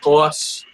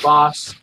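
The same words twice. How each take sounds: First: The word is said with a New York accent. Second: The word is said with a standard accent. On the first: "I kind of got that New York, and I say words differently" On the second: "instead of"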